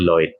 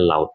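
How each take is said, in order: First: The vowel is said as 'oi'. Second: The vowel is said as 'au'. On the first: The speaker calls it wrong. "tidak menjadi Lloyd" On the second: The speaker calls it right. "dibacanya laut"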